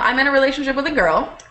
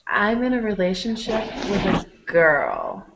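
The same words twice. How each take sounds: First: It is said at a normal speed. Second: It is said slowly and deliberately.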